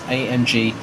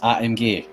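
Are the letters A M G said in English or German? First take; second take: English; German. First: The letters are spoken with English letter names. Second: The letters are spoken with German letter names.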